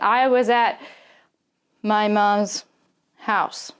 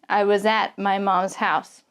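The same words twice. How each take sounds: First: A pause breaks the phrase in the middle. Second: The words flow together without any pause. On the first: The speaker calls it wrong. "I'm not going to pause like" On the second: The speaker calls it right. "there is going to be a little bit of connection here between this consonant and this vowel"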